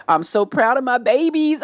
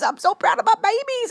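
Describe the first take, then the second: First: Slightly high, proud gush. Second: Very high-pitched squeal of pride; proud squeal. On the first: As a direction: gush over your babies. Gushing about the babies. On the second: Repeats it as a squeal. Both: Real, not acted.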